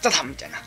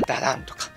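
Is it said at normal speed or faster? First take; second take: faster; normal. First: It is said more quickly. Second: It is said at a normal speed.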